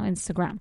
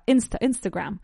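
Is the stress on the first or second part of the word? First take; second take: second; first. First: The stress is on the second part. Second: The stress is on the first syllable. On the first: "So the accent recae en la segunda parte" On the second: "La acentuación recae sobre la primera sílaba"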